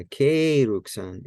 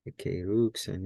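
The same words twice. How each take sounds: First: Ekeruksan with a long, stressed "ke"; Ekeruksan, accent back on the early syllable "ke"; accent moved back. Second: Ekeruksan with a long stressed "ruk"; Ekeruksan, accent pulled over to the middle "ruk"; stress on later syllable. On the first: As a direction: punch the "ke" in Ekeruksan, drawn out slowly. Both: Shown as a demonstration. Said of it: "put the accent back over here where it started".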